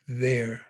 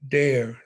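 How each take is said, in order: First: The word begins with a TH sound. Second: The word begins with a D sound.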